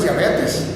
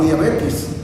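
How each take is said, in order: First: "diabetes" ending in a clear -tes; careful "diabetes", E in the last syllable. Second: "diabetes" said as "diabetis"; last syllable of "diabetes" turned to -tis. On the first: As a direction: say "diabetes" with -tes, not -tis. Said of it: "la palabra correcta es diabetes". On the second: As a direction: say "diabetes" with I replacing final E. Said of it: "no diabetes". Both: Shown as a demonstration.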